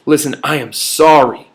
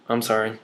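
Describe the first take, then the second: First: Calm, sincere and steady; mean every word of it; sincere apology. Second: Mumbled, much softer half-hearted sorry; insincere sorry. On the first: Speaker showing a congruent apology, sincerely. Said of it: "That is congruent". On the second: Sibling forced to apologize, mumbling it. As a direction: toss off a grudging apology. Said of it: "they say it like this". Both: Shown as a demonstration.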